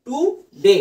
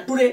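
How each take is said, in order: First: টুডে split as টু, short stop, ডে; broken in two. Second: টুডে run together as one quick unit; all at once. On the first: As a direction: say টুডে in two beats, halting after টু. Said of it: "জিভের কিন্তু গতি আটকাচ্ছেই". (টুডে দুই ভাগে আটকে বলা) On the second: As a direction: say টুডে in a single go without a break. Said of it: "একবারে কিন্তু উচ্চারণ করা যাচ্ছে না". (টুডে একবারে না থেমে বলা) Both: Shown as a demonstration.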